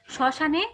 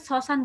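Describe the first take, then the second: First: শ্মশানে as "sho-sha-ne"; palatal sh start. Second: শ্মশান as "so-san", dental s; hissed s sounds. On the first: Teacher modelling for students, শ্মশানে said with "sh". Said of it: "স বলছি". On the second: Teacher showing what we don't say, শ্মশান said "sosan". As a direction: say শ্মশান with s, not sh. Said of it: "এটাকে শ্মশান বলছি না". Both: Shown as a demonstration.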